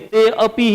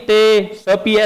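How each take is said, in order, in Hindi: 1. इस चिह्न को 'a' की ध्वनि के रूप में पढ़ा जाता है। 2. इस चिह्न को 's' की ध्वनि के रूप में पढ़ा जाता है। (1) "ते अपी ही बोलेंगे" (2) "ऐसे नहीं बोलेंगे"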